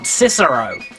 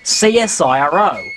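First: It is spoken as a single word. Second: Each letter is spoken separately. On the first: This is how Americans would say it. The speaker calls it wrong. "not CSIRO" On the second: This is how Australians say it. The speaker calls it right. "we in Australia pronounce it CSIRO"

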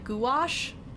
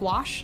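First: The word has two clearly separated syllables. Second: The word runs together as one syllable. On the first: Someone else says it this way. "like really defined two syllables" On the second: This is the usual way the speaker says it. "and I was saying gouache"

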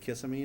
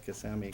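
First: The stress falls on the first syllable. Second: The stress falls on the second syllable. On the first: This is how the speaker used to say it. The speaker calls it wrong. "It used to be Kissimmee to me" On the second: This is how a local says it. The speaker calls it right. "I know it's Kissimmee because somebody told me"

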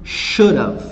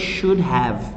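First: The words are contracted into should've. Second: Both words are said fully and separately. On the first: The speaker calls it right. "It's more common for you to hear should have" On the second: The speaker calls it wrong. "they don't say should have"

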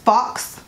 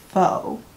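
First: The word sounds like 'fox', ending in an x sound. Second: The word sounds like 'foe', with no final consonant. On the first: The speaker calls it wrong. "if I hear one more person pronounce the word FAUX as fox" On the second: The speaker calls it right. "FAUX is faux, like faux fur"

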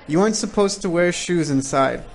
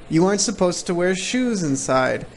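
The two takes are said the same way.

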